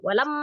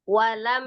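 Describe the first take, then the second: First: The word is said too quickly, sounds clipped. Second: The word is said slowly, every sound complete. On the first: The speaker calls it wrong. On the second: The speaker calls it right.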